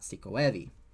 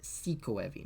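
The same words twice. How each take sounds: First: The main stress falls on the last part, evi. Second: The main stress falls on the first part, siku. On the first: The speaker calls it wrong. "not sikoevi" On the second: The speaker calls it right. "but it's sikoevi"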